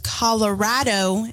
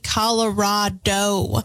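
First: The stressed vowel sounds like 'cat'. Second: The stressed vowel sounds like 'father'. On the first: The speaker calls it right. "the correct way to pronounce the state is Colorado because Colorado is so rad" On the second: The speaker calls it wrong. "I'm very guilty of this because I say Colorado"

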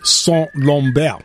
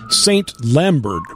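First: The name is said with a French pronunciation. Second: The name is said with an English pronunciation. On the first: "in the French, it is Saint Lambert" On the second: "would look like Saint Lambert"

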